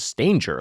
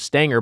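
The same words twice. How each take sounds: First: The name rhymes with danger. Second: The name does not rhyme with danger. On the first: This is how much of his family says the name. "a lot of his family says Stanger, like danger" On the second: This is how most people say the name. "people call him Stanger"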